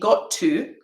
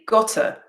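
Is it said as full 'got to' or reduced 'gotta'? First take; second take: full; reduced. First: Both words are said fully and separately. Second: The words are reduced and blended into one. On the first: The speaker calls it wrong. "I don't say got to" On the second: The speaker calls it right. "I say gotta"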